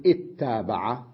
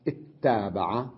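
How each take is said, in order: No difference in how they are said.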